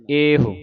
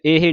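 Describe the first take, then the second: First: ਇਹੋ said ehu, rounded at the end; final short u. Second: ਇਹ said ehi, ending in i; wrong ending. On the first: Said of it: "ਹਾਹੇ ਔਂਕੜ". (ਇਹੋ, ਹਾਹੇ ਨੂੰ ਔਂਕੜ ਨਾਲ) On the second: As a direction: end ਇਹ on a short i. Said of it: "ਇਹ ਨਹੀਂ ਪੜ੍ਹਨਾ". (ਇਹ ਸਿਹਾਰੀ ਵਾਂਗ) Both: Shown as a demonstration.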